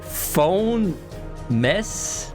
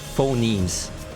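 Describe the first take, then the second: First: The word ends with a short 'mess' sound. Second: The word ends with a long 'meems' sound. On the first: The speaker calls it wrong. "I was trying to like... Like, phone... Mess? ... I wasn't sure how to pronounce the end" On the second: The speaker calls it right. "okay, phonemes. It's a learning experience for me"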